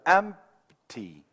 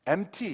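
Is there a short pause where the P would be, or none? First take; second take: pause; none. First: A short silent beat is held where P would be. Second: It runs straight through with no P beat. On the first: The speaker calls it right. "empty 하듯이 박자가 있어야 돼요" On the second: The speaker calls it wrong. "empty 이건 아니에요"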